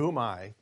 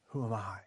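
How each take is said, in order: First: It sounds reluctant and resistant. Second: It sounds humble and willing.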